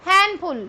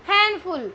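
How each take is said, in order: No difference in how they are said.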